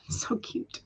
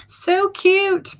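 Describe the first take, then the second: First: Whispered, barely voiced fondness; hushed aww. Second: Squeaky-high gushing over a pet; high-pitched coo. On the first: Streamer melting over a viewer's one-eyed cat, hushed coo. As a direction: coo it under your breath. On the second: Streamer gushing over a viewer's pirate cat, high coo. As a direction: draw it out way up high, cooing. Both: Real, not acted.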